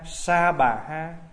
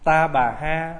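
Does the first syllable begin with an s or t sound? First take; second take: s sound; t sound. First: The first syllable begins with an s sound. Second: The first syllable begins with a t sound. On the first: "Nếu mà nói là âm chuẩn nữa đó là Sa Bà Ha" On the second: "Ta Bà Ha hay Sa Bà Ha đều được hết"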